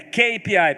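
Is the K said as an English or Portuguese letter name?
English. K is said with its English letter name. The speaker calls it right. "porque a letra K é K"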